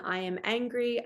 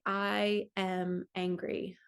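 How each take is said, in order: First: Said in the usual way. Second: Slow, deliberate "I am angry" with the weight on each word; slow affirmation. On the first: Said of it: "you shift from the". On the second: Shown as a demonstration. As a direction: own the feeling as you say it, slowly. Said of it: "I can say".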